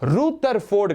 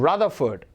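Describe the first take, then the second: First: The first syllable has a long 'oo' vowel. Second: The first syllable has a short 'uh' vowel. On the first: The speaker calls it wrong. "ரூதர்ஃபோர்ட் கிடையாது" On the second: The speaker calls it right.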